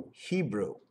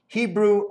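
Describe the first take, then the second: First: Lower, much softer Hebrew. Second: Said in the usual way. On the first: Shown as a demonstration. Repeating Hebrew to himself, low and soft. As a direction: let Hebrew sink low and quiet. Word said twice in contrast.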